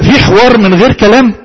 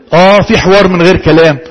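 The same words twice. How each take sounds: First: Teacher posing the question في حوار من غير كلام؟ with a rising tune; asking tune. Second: اه، في حوار من غير كلام said as a settled statement, falling at the end; teacher answering her own question with a falling في حوار من غير كلام; confirming tune. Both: Shown as a demonstration.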